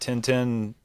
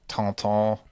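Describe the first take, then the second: First: The name has a plain English vowel. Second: The name has a French nasal vowel.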